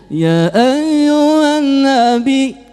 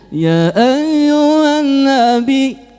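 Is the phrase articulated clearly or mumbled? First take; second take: mumbled; mumbled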